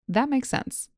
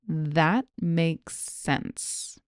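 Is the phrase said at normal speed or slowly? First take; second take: normal speed; slowly. First: The phrase is said at normal conversational speed. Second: The phrase is said slowly and carefully. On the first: "Here it is at normal speed" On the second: "Here it is slowly"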